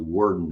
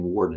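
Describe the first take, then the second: First: The first syllable sounds like 'word'. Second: The first syllable sounds like 'war'. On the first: The speaker calls it right. "it's actually Worden is the way correct pronunciation" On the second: The speaker calls it wrong. "I keep saying Warden"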